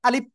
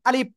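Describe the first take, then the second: Both takes have the same delivery.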